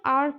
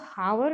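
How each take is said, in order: First: The word starts with a vowel, no h sound. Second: The word starts with an audible h sound. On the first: The speaker calls it right. "इसमें हम आर पढ़ते हैं" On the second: The speaker calls it wrong. "हावर नहीं पढ़ते हैं"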